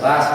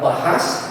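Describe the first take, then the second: First: It is said without an h in the middle. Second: It is said with an h in the middle.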